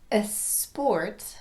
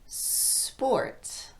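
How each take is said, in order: First: A short vowel sound comes before the S. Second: The word starts directly with a voiceless S. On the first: The speaker calls it wrong. "not a sport" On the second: The speaker calls it right. "but sport"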